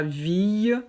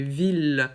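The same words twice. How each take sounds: First: "ville" said with a y glide, as "viy"; wrong-way "ville", no l sound; mispronounced ville. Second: "ville" ending in a clear l; "ville" said as "veel", no y glide. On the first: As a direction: end "ville" like the end of "fille". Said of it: "Ce n'est pas ville". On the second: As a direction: sound the l at the end of "ville". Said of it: "c'est avec un L et pas I E". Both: Shown as a demonstration.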